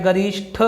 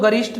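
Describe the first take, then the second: First: गरिष्ठ ending in aspirated "shth"; breath released on the final ठ of गरिष्ठ; correct form. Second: गरिष्ठ ending in plain "sht", no puff of air; unaspirated t at the end of गरिष्ठ; wrong form. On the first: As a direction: say गरिष्ठ as "garishth", with a puff of air. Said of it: "ये होता है गरिष्ठ". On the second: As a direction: say गरिष्ठ as "garisht". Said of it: "गरिष्ठ न होकर". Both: Shown as a demonstration.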